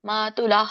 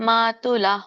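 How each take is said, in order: No difference in how they are said.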